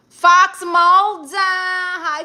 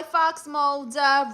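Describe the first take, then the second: First: Drawn-out name call. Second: Said in the usual way. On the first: Real, not acted. Calling out to the viewer Fox Mulder, loud, slow and high.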